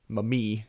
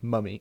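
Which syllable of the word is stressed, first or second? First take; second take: second; first. First: The stress is on the second syllable. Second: The stress is on the first syllable. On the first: The speaker calls it wrong. "It's like in English saying mummy" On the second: The speaker calls it right. "instead of mummy"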